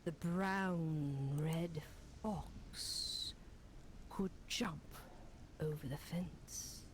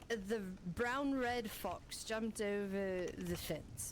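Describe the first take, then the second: First: It is said dramatically, with theatrical flair. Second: It is said plainly, without flair.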